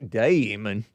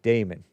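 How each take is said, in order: First: It is said with an Australian accent. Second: It is said with the speaker's plain accent. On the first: The speaker calls it wrong. "But not Damon. Not like the Australian" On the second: The speaker calls it right. "I just call it Damon"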